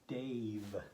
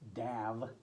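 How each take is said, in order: First: The vowel is a long a sound. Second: The vowel is a short a sound. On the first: The speaker calls it right. "Say A, Dave" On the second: The speaker calls it wrong. "Don't say Dav"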